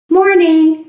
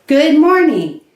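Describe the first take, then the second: First: "Morning" with the G dropped, said loose and easy; clipped casual "Morning", no G at the start; relaxed greeting. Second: Full "Good morning" with a clear G; formal greeting. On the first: Teacher modelling the casual "Morning" for learners. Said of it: "Less formal". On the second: Teacher modelling the formal "Good morning" to students. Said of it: "More formal". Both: Shown as a demonstration.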